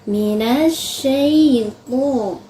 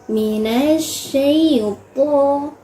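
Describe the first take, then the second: Both takes have the same delivery.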